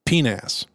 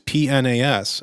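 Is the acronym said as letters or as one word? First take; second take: one word; letters. First: It is said as a single word. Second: It is said as separate letters. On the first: "or as they pronounce it" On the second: "their acronym, which is PNAS"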